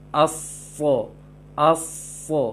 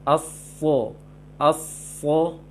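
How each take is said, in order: The two takes are said the same way.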